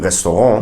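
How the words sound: It is pronounced the native French way. "In French, it would be restaurant"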